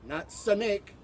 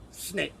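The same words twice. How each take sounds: First: "snake" said as "suh-nake" with an added vowel; wrong snake. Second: "snake" as one clean syllable, no added vowel; correct snake. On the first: Teacher contrasting for students, "suh-nake". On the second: Teacher contrasting for students, clean "snake". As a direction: say "snake" crisply, one beat. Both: Shown as a demonstration.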